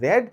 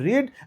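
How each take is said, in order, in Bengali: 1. স্বরধ্বনিটি ছোট 'e' উচ্চারণ। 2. স্বরধ্বনিটি লম্বা 'ee' উচ্চারণ। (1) "আমি যদি পাস্ট টেন্সের কথা বলি তাহলে হবে রেড" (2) "আমি যদি প্রেজেন্ট টেন্সের কথা বলি তাহলে হবে রিড"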